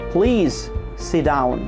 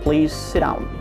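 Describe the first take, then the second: First: The phrase is said slowly. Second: The phrase is said fast. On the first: The speaker calls it wrong. "যদি fast না করেন অর্থ আরো বিকৃত হয়ে যেতে পারে" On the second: The speaker calls it right. "to speak fast when you are eliding"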